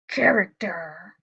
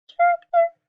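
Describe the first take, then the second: First: It is said in a lion voice. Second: It is said in a mouse voice.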